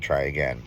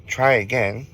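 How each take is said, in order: First: Said in the usual way. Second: Lightly voiced ghost woman, pitched higher; a higher, lightly mocking challenge; taunting ghost woman. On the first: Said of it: "as she said". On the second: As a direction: retell a ghost's taunt in a raised voice. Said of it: "she laughed and she says".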